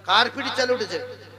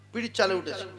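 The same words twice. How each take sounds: First: "কার" raised and punched, then falling; pointed question. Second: Said in the usual way. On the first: Real, not acted. Preacher quizzing crowd on the story, "কার" stressed. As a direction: lean hard on "কার" as a challenge.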